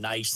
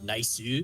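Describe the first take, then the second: First: It is said in a plain English accent. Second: It is said in a Japanese accent, extra vowel. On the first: "instead of saying nice" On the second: "they're always like nice"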